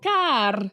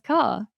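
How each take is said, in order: First: The final R sound is pronounced. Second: The final R sound is silent. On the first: "they'd be trying to pronounce that, that R" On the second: "we don't pronounce the, the R. So yeah, it's car"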